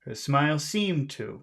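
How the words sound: The word seemed carries the stress. "just emphasize the word seemed"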